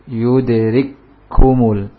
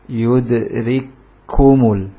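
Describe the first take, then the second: Both takes have the same delivery.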